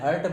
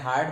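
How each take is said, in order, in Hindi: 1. स्वर एक छोटी मध्य 'uh' ध्वनि है। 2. स्वर एक लंबी खुली 'aa' ध्वनि है। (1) "एक्चुअल में हर्ट बोला जाता है इंग्लिश में" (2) "देखो मैं हार्ट बोलता हूँ"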